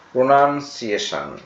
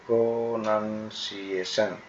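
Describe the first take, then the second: First: Said in the usual way. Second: প্রোনাউন্সিয়েশন drawn out as pro-nan-si-e-shon; teacher's stretched, split-up প্রোনাউন্সিয়েশন; syllable by syllable. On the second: Shown as a demonstration. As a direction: sound out প্রোনাউন্সিয়েশন in long, separate syllables. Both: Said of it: "এভাবে উচ্চারণ করবে".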